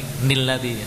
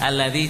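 First: The word begins with an n sound. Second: The word begins with a vowel sound. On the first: The speaker calls it wrong. "Tambah salah lagi. Nilladzi, ya, salah" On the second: The speaker calls it right. "Alladzi jama'a. Jangan nilladzi"

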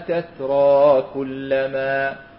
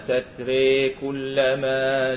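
First: The word ends in a plain open -a. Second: The final vowel is bent fully toward an e. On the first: "من غير تنوين" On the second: "الإمالة قولا واحدا"

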